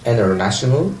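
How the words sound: The t after the n is dropped. "Some people in America don't pronounce the sound ta in some words"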